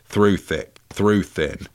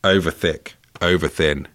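First: THROUGH said clearly at the head of each phrase; measured recital contrasting the word "through"; mistaken spell wording. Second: OVER said clearly at the head of each phrase; measured recital contrasting the word "over"; correct spell wording. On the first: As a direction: set out "Through thick, through thin" as the slip. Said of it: "in his recitation". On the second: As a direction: set out "Over thick, over thin" as the correct version. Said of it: "he's made a small error". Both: Shown as a demonstration.

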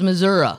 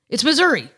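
First: "Missouri" said as mə-ZUR-uh, ending in an uh sound; mock the outsider's "Missouri" with an -uh ending; Chicago-style Missouri. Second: "Missouri" as mə-ZUR-ee, ending on a clear ee. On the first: Mocking the Chicago lawyer on the show, "Missouri" ending in uh. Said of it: "he sounds like he's from Chicago". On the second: Shown as a demonstration. Telling the cohost how northerners say "Missouri", ending ee. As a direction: say "Missouri" with a bright ee at the end. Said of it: "Anything north of Saint Louis".

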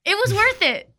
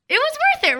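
First: Said in the usual way. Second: It was worth it, squealed much higher in a strange voice; squealed repeat. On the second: Real, not acted. Echoing her own words to her friend in a high squeal. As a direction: squeal it back as a giddy echo.

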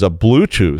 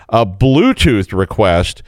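First: Said in the usual way. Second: Bluetooth slowed right down and leaned on; stress on Bluetooth. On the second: Shown as a demonstration. Host underlining Bluetooth for wary listeners, slow stress. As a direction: drag out "Bluetooth" as if underlining it twice. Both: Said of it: "so underline that twice".

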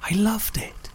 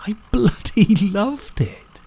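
First: A slow secret whisper; whispered confession. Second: Slow, laughing through the words. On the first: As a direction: let it slip out under your breath. Confessing a surprising feeling. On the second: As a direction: let a delighted laugh break in. Same words repeated with a laugh. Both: Acted.

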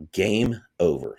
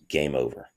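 First: Slow, deliberate "Game over", each word weighted; slow, emphatic. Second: Said in the usual way. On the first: Real, not acted. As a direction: stretch out "Game over" like a final verdict. Repeats it slowly for emphatic effect.

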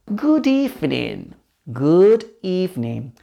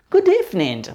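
First: "Good evening" drawn out slowly for learners; slow, careful "Good evening"; slow model. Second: Said in the usual way. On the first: Shown as a demonstration. Teacher models phrase slowly, then quicker.

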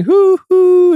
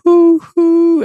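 First: High loud excited hoo hoo; loud high copycat hoot; child copying train. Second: High loud hoo hoo like a distant train; loud high train hoot; train whistle imitation. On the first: Retold or imitated. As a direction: toddler hooting like the train. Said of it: "she started going". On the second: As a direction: mimic a steam whistle. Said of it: "she heard".

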